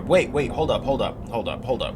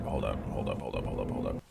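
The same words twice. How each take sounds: First: Urgent interruption. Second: Much lower, softer repeat; muttered hold up. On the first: Stopping at shocking news. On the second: Player muttering to himself in a low murmur. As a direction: drop it low under your breath. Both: Real, not acted.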